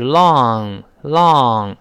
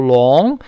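First: "long" with open, drawn-out aw; open vowel. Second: "long" with a closed oh, like 龙; wrong vowel. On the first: Teacher shows learners the correct long, open vowel. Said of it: "是long". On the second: Teacher shows the reading to avoid, closed vowel. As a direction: round the vowel of "long" too far. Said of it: "不要读". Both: Shown as a demonstration.

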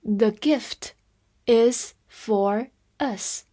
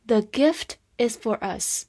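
First: Very slow, pausing between words; slow teacher's model reading. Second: Said in the usual way. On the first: Shown as a demonstration. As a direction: spread the words out for learners. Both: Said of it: "来慢读一遍".

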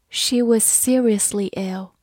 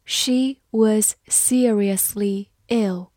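First: Said in the usual way. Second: Each word slow and drawn out; careful slow reading. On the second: Shown as a demonstration. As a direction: read it slowly for learners. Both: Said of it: "好，慢慢来读。".

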